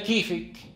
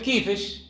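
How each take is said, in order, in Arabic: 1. تنتهي الكلمة بصوت k. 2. تنتهي الكلمة بصوت sh. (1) "بدل كيفك" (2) "قلب الكاف شينا في خطاب الأنثى"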